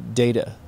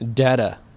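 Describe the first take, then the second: First: The first vowel is long. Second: The first vowel is short. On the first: The speaker calls it right. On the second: The speaker calls it wrong.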